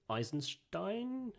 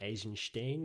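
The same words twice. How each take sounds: First: The name is said with an English pronunciation. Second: The name is said with a Russian pronunciation.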